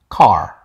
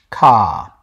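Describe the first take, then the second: First: The final R is pronounced. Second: The final R is dropped. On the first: "American English uses the older pronunciation of car" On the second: "When England English dropped the R"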